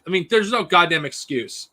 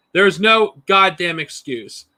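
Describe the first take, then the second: First: Said in the usual way. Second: Each word of "There's no goddamn excuse" spelled out slowly; slow emphatic repeat. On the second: Real, not acted.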